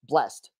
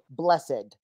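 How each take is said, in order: First: The word is said with one syllable. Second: The word is said with two syllables. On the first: This is the more modern pronunciation. "A few say blessed" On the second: This is the older, traditional pronunciation. "even if he says every other word the more modern way"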